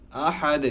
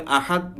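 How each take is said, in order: First: আহাদ with a bounced "de" ending; correct qalqalah. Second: আহাদ stopped dead on a "t"; wrong, no qalqalah. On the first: Teacher giving the correct form, qalqalah on আহাদ. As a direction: release the দ of আহাদ as a light echo. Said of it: "উচ্চারণটা এমন হবে". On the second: Teacher showing a mistake, আহাদ with no bounce. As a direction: cut off আহাদ without any echo. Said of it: "এমন করলে হবে না". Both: Shown as a demonstration.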